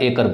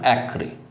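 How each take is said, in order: First: The word ends with an 'er' sound. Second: The word ends with a 'ree' sound. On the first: The speaker calls it wrong. "जिसे आप एकर बोलते हैं" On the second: The speaker calls it right. "लेकिन होते हैं इसका उच्चारण एक्री"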